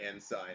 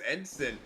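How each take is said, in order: First: The second syllable sounds like 'sign'. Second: The second syllable sounds like 'sin'. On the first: The speaker calls it wrong. "I'm just saying it wrong when I say ensign" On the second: The speaker calls it right. "It's it is ensign"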